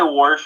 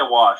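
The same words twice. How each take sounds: First: Wash said as "warsh", with an r before the sh. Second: Said in the usual way. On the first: Shown as a demonstration. Man showing how he sometimes says wash, as "warsh". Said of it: "I sometimes say wash". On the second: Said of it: "but I also say wash".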